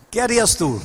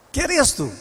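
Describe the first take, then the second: First: Said in the usual way. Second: "¿Qué harías tú?" asked again higher, leaning on "harías"; repeated question, pitched higher. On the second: Shown as a demonstration. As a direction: press the listener with "harías".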